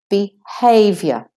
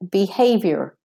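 First: It is said in a British accent. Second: It is said in an American accent.

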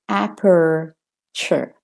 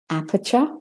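First: It is spoken in an American accent. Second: It is spoken in a British accent. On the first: "And for the American" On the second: "for the Australian"

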